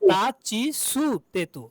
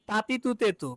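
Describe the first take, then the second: First: The middle syllables are said as chi and tsu. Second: The middle syllables are said as ti and tu. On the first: This is how the row is actually pronounced. The speaker calls it right. "কিন্তু হয়েছে কি" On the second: This is what the regular pattern would predict. The speaker calls it wrong. "হওয়ার কথা ছিল"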